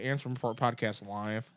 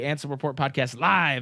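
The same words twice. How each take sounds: First: It is said plainly, with little energy. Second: It is said with lively, hyped energy. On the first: The speaker calls it wrong. "like that's not as cool" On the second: The speaker calls it right. "You got to say it like that"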